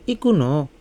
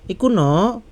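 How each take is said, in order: First: It is said with answering, statement intonation. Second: It is said with question intonation.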